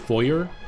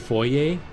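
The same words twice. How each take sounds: First: The word has an English-style pronunciation. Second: The word has a French-style pronunciation. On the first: "so many people say say foyer" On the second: "I say foyer ... French influence"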